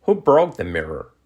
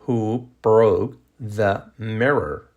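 First: Connected example question; natural-speed model question. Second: Very slow, word-by-word question; slow model question. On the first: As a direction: run the words together naturally. Teacher models sentence at natural speed. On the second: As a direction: separate each word for learners. Same question, slowed for learners. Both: Shown as a demonstration.

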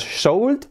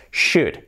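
First: "should" with the L wrongly sounded; mispronounced should. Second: "should" with SH and no L; correct should. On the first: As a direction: say "should" as "shoald", L audible. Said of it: "Que no es". ("should" mal dicho, con L sonora) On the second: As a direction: say "should" with the L silent. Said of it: "la L fuera". ("should" bien pronunciado, sin la L) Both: Shown as a demonstration.

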